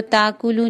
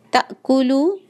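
First: ताकुलू smoothed over, no stop; without the catch. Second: ताकुलू with a clear catch before the vowel; glottal catch. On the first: Teacher imitating the students' mistake. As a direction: skip the glottal stop in ताकुलू. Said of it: "ताकुलू नहीं पढ़ेंगे". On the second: Teacher shows the hamza catch. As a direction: give ताकुलू its glottal stop. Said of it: "ताकुलू में झटका है". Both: Shown as a demonstration.

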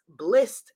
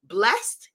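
First: "Blissed" with a short i, like bliss. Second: "Blessed" with a short e, like bless. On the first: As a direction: say "Blissed" rhyming with missed. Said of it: "you are blessed and blissed". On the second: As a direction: say "Blessed" as the ordinary word. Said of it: "Blissed, yes". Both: Shown as a demonstration.

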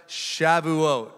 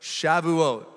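First: Shavuot said clearly as sha-vu-OT for the crowd to repeat; Hebrew pronunciation demo. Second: Shavuot repeated crisply as sha-vu-OT, falling at the end; Hebrew pronunciation demo. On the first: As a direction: model Shavuot with stress on OT. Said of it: "Can everybody say that?". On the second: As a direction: say Shavuot once more, stress on OT. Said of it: "Listen one more time". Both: Shown as a demonstration.

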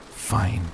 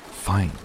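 First: Short, mildly exasperated snap; snapped, exasperated. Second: Short, mildly angry retort. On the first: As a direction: give in abruptly, with a touch of exasperation. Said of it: "he snapped, abruptly exasperated". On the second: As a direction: throw the word back with understated anger. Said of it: "I repeated angrily". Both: A narrator's reading.

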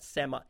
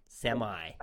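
First: "Semi" ending in a short, weak vowel; British "semi". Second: "semi" said as SEM-eye; American "semi" with long I. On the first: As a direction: say "Semi" as SEM-uh or SEM-ee, unstressed ending. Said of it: "I didn't pronounce it right". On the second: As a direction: end "semi" on a clear "eye" sound. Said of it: "Sorry, the I, I didn't pronounce it right". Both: Shown as a demonstration.

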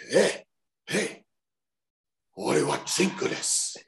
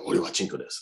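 First: High-pitched imitation of himself calling out; calling to driver. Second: Said in the usual way. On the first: Wrestler retelling practice on a taxi driver, high hailing voice. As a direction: try out the phrase, pitched way up. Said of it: "say it to the taxi driver". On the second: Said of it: "what is it again".

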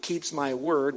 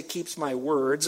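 First: WORD drawn out, falling, with no s; very slow, deliberate "word"; stress on singular WORD. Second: WORDS drawn out with its final s clear; slow, deliberate "words"; stress on plural WORDS. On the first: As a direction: land firmly on the singular "word". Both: Shown as a demonstration. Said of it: "it doesn't say keeps my words".

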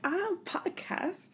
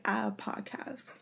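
First: Slow, much higher, still soft; awkward repeat. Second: Slow, much softer, laughing mumble; sheepish. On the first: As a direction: say it again, higher and stretched out. Repeated louder on request. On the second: Retold awkward self-promotion. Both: Retold or imitated.

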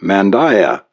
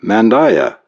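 First: Said in the usual way. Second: Pitched up, mildly impatient. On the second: A narrator's reading. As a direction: press the demand with a touch of impatience. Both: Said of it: "the stranger said impatiently".

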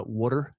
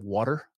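First: "water" with a rounded "waw" vowel and an American R; own off-standard pronunciation. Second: "water" as "wahter", with an R; American "water" with an ah vowel; standard American pronunciation. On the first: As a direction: say "water" as "wawter". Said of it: "that sound a little off". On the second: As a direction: open the first vowel of "water" to ah. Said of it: "instead of". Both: Shown as a demonstration.

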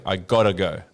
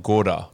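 First: Gotta said as ɡɑtə, crisp t; Aussie gotta go, rhymes with ricotta; Australian gotta. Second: Gotta with an American rolled d and ah. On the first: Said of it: "you gotta say". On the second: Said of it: "you were like, did more like". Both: Shown as a demonstration.

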